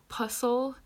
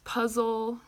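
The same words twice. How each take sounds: First: The middle consonant is an s sound. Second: The middle consonant is a z sound. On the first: The speaker calls it wrong. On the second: The speaker calls it right.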